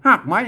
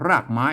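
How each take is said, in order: First: The first word begins with an h sound. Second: The first word begins with an r sound. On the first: This is the Northern Thai (Lanna) pronunciation. "เฮาภาษาละนาเปิ้นออกเสียงหากไม้นะ" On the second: This is the Central Thai pronunciation. "ภาษาไทยเป็นคนรากนะรากไม้นะ"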